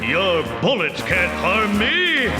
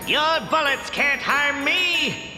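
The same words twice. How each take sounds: First: The voice is produced from the diaphragm. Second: The voice is produced from the throat. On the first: The speaker calls it right. "here's the diaphragm" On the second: The speaker calls it wrong. "that's from the throat"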